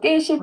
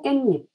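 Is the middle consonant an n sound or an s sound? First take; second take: s sound; n sound. First: The middle consonant is an s sound. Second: The middle consonant is an n sound. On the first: The speaker calls it wrong. "깨십 아니고" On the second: The speaker calls it right. "깻잎이라고 발음해야죠"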